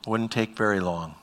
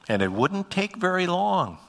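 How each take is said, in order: First: Said in the usual way. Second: LONG held high, then falling; high-pitched emphasis. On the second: Real, not acted. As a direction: lift "wouldn't take very long" high, dropping at the end of "long". Stretched emphatic line, then repeated plainly.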